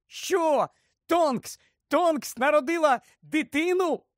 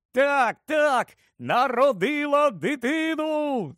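First: Very high squealed questions; excited shriek. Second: High, drawn-out elated yell; joyful yelling. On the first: Hermione hears of the baby, shrieking in amazement. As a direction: squeal it in astonished delight. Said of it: "заверещала". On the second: Lupin confirms the birth, yelling with joy. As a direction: holler the confirmation, stretching it out. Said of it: "зарепетував Люпен". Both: A narrator's reading.

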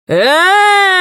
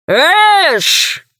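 First: High, sustained drawn-out cry; long held shout from another voice; drawn-out call. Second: High cry that rises and falls; narrated shout from close by; sudden cry. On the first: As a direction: stretch the call out and hold the pitch up. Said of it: "протянул другой голос". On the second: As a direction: call it out sharply, pitched up. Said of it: "раздался совсем близко крик". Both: A narrator's reading.

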